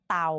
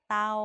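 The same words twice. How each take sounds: First: The syllable is said on a low tone. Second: The syllable is said on a level mid tone.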